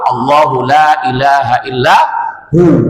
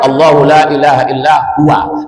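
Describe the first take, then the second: First: The last word ends short as hu. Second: The last word ends long as huwa. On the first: The reader stops after this word. "Kalau berhenti dibaca hu" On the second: The reader continues without stopping. "kalau diteruskan"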